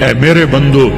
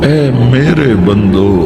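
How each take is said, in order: First: It is said flatly, without warmth. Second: It is said tenderly, full of warmth. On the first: The speaker calls it wrong. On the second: The speaker calls it right.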